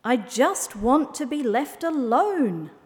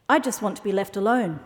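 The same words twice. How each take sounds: First: Slow, high, drawn-out huff; huffy. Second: Fast, even-pitched line; quick, offhand. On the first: Owl rebuffing the camel, slow and huffy. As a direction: stretch it out in a grumpy huff. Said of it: "the owl huffed". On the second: Fox agreeing with owl, quick and offhand. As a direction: say it briskly without drawing out words. Fox echoes the owl's wish. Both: A narrator's reading.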